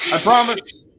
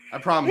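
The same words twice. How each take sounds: First: Said in the usual way. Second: Much higher, pleading promise. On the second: Real, not acted. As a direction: plead it up high.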